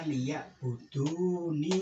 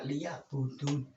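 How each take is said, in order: First: The word ends with a final 'ni' vowel. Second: The word ends on the consonant 'n'. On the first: The speaker calls it right. "Harus dibaca ini" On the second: The speaker calls it wrong. "Ini salah kaprah"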